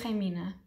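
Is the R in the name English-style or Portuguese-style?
Portuguese-style. The name starts with a Portuguese-style R sound. "in Portuguese I would say Remina, because we do the R's like R"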